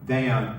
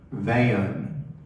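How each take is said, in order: First: The name is said as one syllable. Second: The name is drawled into two syllables, East Texas style.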